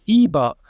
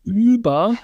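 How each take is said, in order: First: "über" with the ü said as an unrounded ee, lips spread. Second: "über" with a rounded front ü, lips rounded. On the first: A linguist showing the Texas German unrounded vowel. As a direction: say "über" without rounding your lips. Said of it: "same vowel, except for it's not rounded". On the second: A linguist showing the standard German vowel. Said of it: "instead of saying things like über". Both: Shown as a demonstration.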